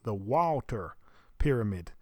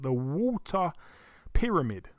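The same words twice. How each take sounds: First: It is said in an American accent. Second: It is said in a non-American accent.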